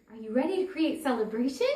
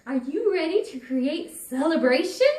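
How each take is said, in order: First: Quick, upbeat invitation; exuding celebration. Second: Louder, upbeat call into the room; celebratory invitation. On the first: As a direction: radiate celebration as you ask. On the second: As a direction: invite her to celebrate with bright energy. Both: Retold or imitated. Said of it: "I'm exuding this celebration".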